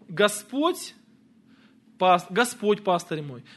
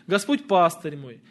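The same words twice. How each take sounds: First: The stress falls on the word Господь. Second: The stress falls on the word пастырь.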